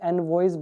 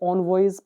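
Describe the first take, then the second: First: The first syllable sounds like 'en'. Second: The first syllable sounds like 'on'. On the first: "मेरे हिसाब से इसको एनवॉयज बोलना चाहिए" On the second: "वैसे तो ये ऑनवॉयज पढ़ा जाता है"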